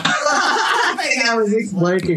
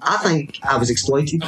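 First: High, drawn-out laughing delivery; slow words squeezed through laughter; cracking up. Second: Said in the usual way. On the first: Real, not acted. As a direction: dissolve into high laughter while saying it. Repeats own joke, cracking up.

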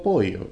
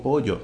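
First: "pollo" said as "poi-yo", extra i before the y; exaggerated i glide. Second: "pollo" said as "po-yo", plain y for ll; own Venezuelan pronunciation. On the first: Correcting the imitators, the wrong "pollo" as "poi-yo". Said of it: "yo no digo pollo". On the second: Correcting the imitators, his own "pollo" as "po-yo". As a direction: say "pollo" with a simple y, no extra i. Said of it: "yo digo pollo". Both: Shown as a demonstration.

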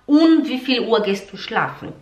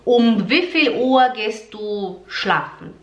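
First: Um with an open nasal vowel; wrong um. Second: Closed lips on um, slowly; German um. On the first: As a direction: say um the Portuguese way. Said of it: "Você não pode falar". (um à brasileira, errado) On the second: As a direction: say um with the lips shut. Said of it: "Um, e não um". (um alemão com lábios fechados) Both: Shown as a demonstration.

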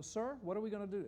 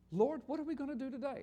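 First: Said in the usual way. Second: "Lord" with a lifted, higher voice; the reading with Lord. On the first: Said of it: "And it's little L, little". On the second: Shown as a demonstration. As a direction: read "Lord, what are we gonna do" a touch higher. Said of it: "little L, little O, little R, little D".

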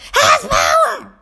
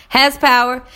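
First: High, drawn-out mock shout; mimicked kid yell, stretched out; imitating yelling student. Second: Said in the usual way. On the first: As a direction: holler it back slowly like an overexcited pupil. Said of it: "walking around the room yelling". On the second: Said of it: "I'll just start saying".

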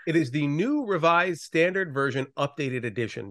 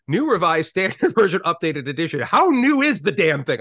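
First: Said in the usual way. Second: New Revised Standard Version Updated Edition said with a laugh, mocking its length; mocking exasperation. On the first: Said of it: "English is a garbage language". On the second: Shown as a demonstration. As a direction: roll your eyes at the endless title, laughing. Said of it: "garbage words and garbage syllables".

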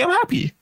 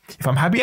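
First: Bright happy lift. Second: Said in the usual way. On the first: Shown as a demonstration. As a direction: pitch jumps way up on happy. Showing happiness on her face.

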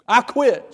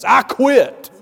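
First: Loud high cry of giving up; second yelled quit. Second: Loud, high yell of giving up; desperate yell in the hallway; screamed quit. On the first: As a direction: yell it again, fed up. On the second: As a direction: shout it out in frustration. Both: Retold or imitated. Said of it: "I just screamed out to that circumstance".

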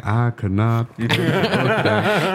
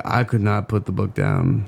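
First: Slow, lightly voiced Southern Clinton drawl; a hint of Bill Clinton, stretched out. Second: Said in the usual way. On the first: Son redoing his dad's line as a mild Bill Clinton. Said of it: "like a little Bill Clinton thing". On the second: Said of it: "my dad called me up".

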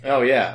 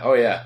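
First: Excited shout. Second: Said in the usual way. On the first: Real, not acted. Shouts playfully after the bit.

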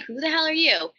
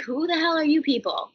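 First: Raised, baffled demand again; mock bewildered. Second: Raised, baffled demand; mock bewildered. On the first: Confronting the producers, mock bewildered. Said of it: "So I'm like". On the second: Meeting trench-coated strangers in sweats, mock bewildered. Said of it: "And I'm like". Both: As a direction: act stunned by the strangers.

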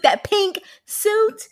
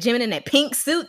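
First: "pink suit" high and drawn out; emphatic gushing. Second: Said in the usual way. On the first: Real, not acted. Host raving about an outfit, high emphatic drawl on "pink suit". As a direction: stretch "pink suit" slowly, rising high.

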